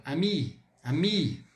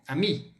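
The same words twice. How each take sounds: First: "ami" with a slightly longer final I; lengthened final vowel. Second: Said in the usual way. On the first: Shown as a demonstration. Teacher showing the feminine word for friend, lengthened final vowel. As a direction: hold the I of "ami" a little. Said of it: "eu falo um pouquinho mais longa". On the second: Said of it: "E amigo".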